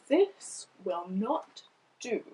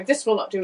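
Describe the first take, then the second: First: Slow, quiet, drawn-out reading; slow owl voice. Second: Said in the usual way. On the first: Shown as a demonstration. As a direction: read it slowly like a long thinker. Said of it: "the words slowed down because I was reading the owl". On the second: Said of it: "in my head as I'm reading".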